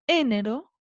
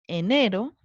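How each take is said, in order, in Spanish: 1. El acento está en la primera sílaba. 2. El acento está en la sílaba del medio. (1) "Se acentúa en la antepenúltima" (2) "Se acentúa en la penúltima"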